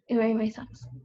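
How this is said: It is said in an angrier, irritated tone.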